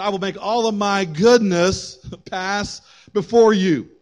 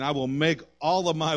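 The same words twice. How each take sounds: First: Higher, slow, emphatic scripture reading; proclaimed verse. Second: Said in the usual way. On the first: Real, not acted. Preacher repeating God's answer to the congregation, proclaiming. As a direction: declare the promise slowly with lift.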